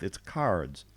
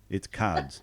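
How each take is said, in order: First: It is said in a Southern US accent. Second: It is said in an Australian accent.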